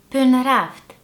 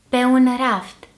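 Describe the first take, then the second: First: The meeting vowels merge into one syllable. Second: The meeting vowels are said separately. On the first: It suits informal speech. "then the contracted form" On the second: It suits formal speech. "the uncontracted form first"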